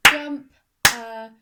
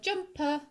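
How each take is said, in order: First: "Jump, uh" as two loud, high, separate beats; clapped-out syllables. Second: Said in the usual way. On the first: Shown as a demonstration. Teacher taking her turn, "Jump, uh" syllable by syllable. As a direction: punch "Jump", pause, then "uh". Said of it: "it's my turn". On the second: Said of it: "in the word jumper".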